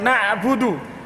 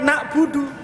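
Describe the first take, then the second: First: A throaty consonant sounds before 'budu'. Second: No throaty consonant sounds before 'budu'. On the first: It means we worship. The speaker calls it right. "Aslinya kan na'budu" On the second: It relates to the word for forever. The speaker calls it wrong. "bukan na'budu"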